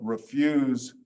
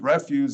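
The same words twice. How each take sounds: First: The stress is on the second syllable. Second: The stress is on the first syllable. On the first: It is the verb. "Refuse is an is a verb" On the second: It is the noun. "Refuse is a is a noun"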